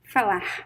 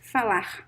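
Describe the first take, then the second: First: The final R sounds like an English H. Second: The final R sounds like an English H.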